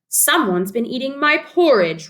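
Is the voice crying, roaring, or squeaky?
roaring. It is said in a loud roaring voice.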